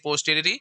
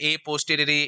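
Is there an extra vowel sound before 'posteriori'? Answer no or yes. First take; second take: no; yes. First: The word begins directly with the 'p' sound. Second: An extra vowel sound comes before the 'p'. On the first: The speaker calls it right. "Actually बोलना चाहिए पोस्टीरियरी" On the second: The speaker calls it wrong. "कई बोलते रहते हैं ए पोस्टीरियरी"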